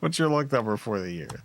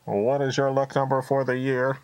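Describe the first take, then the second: First: It is said in a normal natural voice. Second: It is said in a put-on robotic voice. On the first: The speaker calls it right. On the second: The speaker calls it wrong.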